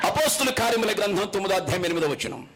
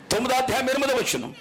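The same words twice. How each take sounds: First: Said in the usual way. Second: Faster, higher repeat with ఎనిమిదో stressed; emphatic repeat. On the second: Shown as a demonstration. Preacher repeating the verse number so everyone finds it, emphatic. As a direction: push the reference again, quicker and raised.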